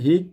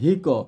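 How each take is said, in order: First: The final q stops flat with no echo. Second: The final q ends with an echoing bounce. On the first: The speaker calls it wrong. "অনেকে পরে হিক, কিন্তু হিক হবে না" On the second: The speaker calls it right. "তখন কফটা কলকলা হয়ে যাবে"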